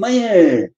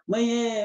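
First: It is said in a curt, irritated tone. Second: It is said in a sweet, affectionate tone. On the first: A teenager is calling for the mother. "se anuncia pelo tom do manhã" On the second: A small child is calling for the mother. "Quando a criança é pequenininha"

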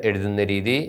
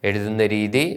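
No difference in how they are said.

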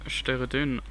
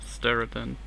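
First: The name is stressed the German way. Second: The name is stressed the English way. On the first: "im Deutsch würde ich Steredan betonen" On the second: "aber Englisch Steredan"

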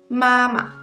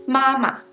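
The two takes are said the same way.

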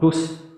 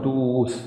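First: The vowel is kept short. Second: The vowel is dragged out long. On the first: The speaker calls it right. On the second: The speaker calls it wrong. "not dus, no dragging"

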